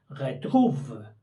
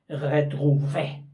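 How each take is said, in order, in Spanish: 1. La palabra termina sin una vocal 'ay' final. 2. La palabra termina con una vocal 'ay' clara.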